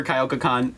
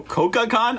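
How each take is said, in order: First: "kyoka con" with a y-glide after the k; first attempted pronunciation. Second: "koka con" with a plain ko, higher pitched; unsure second pronunciation. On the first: Streamer naming the convention to viewers, "kyoka con" with a glide. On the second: Streamer correcting the convention name, unsure "koka con" without the glide. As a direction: say "koka con" as ko-ka con, tentatively raised. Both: Real, not acted. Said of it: "sorry if I'm saying it wrong".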